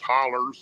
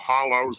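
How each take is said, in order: First: The word ends with an 'er' sound. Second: The word ends with an 'oh' sound. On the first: This is how local people say it. "us old Tennessee boys, we call hollows hollers" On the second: This is the standard form. "we call hollows"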